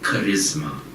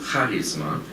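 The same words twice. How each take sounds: First: The stress is not on the first syllable. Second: The stress is on the first syllable. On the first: It is the English word. "the English word charisma" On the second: It is the Greek word. "I'm accenting this first syllable"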